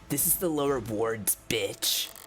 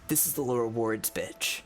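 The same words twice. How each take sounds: First: The final word is said with strong emphasis. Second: The final word is sighed with no emphasis. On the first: The speaker calls it wrong. "Sorry, I put emphasis on it" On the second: The speaker calls it right. "He sighs the word without emphasis"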